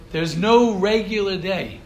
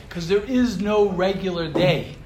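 First: "no" stressed, each word spaced out slowly; slow emphatic repeat. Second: Said in the usual way. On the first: Shown as a demonstration. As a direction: lean hard on "no regular day", slowly. Repeats key line for emphasis.

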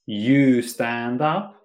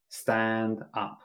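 First: Slow, full sentence with you; full form, slow. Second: Said in the usual way. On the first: Shown as a demonstration. Teacher contrasting full sentence, said slowly. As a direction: spell out you stand up slowly. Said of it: "Instead of saying". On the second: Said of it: "we say".

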